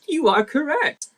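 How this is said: It is read in a put-on villain character voice.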